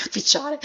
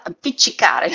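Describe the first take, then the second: First: Appicciare with a syllable dropped, laughing; garbled pronunciation. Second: Appiccicare said carefully in full; correct pronunciation. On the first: Real, not acted. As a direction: slip into appicciare, clipped short. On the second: Shown as a demonstration. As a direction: spell out appiccicare syllable by syllable.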